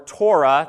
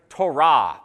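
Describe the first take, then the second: First: The word is said with an English pronunciation. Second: The word is said with a Hebrew pronunciation. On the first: "That's what it was called when I was growing up" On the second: "Ben decided to pronounce it the Hebrew way"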